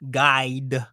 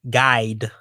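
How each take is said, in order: First: The vowel is crisp and clearly sounds like guide. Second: The vowel is drawled so it sounds like god. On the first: "let me enunciate guide" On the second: "I'm a little country. They both sound the same if I say it like that"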